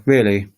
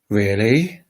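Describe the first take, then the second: First: Really? with a dry falling tune; sarcastic. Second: Really? with a rising, surprised tune. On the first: Teacher showing a sarcastic English Really?. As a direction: drop Really? with mild sarcasm. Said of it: "a bit sarcastically". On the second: Teacher showing a surprised English Really?. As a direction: ask Really? as if amazed. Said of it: "really surprised". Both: Shown as a demonstration.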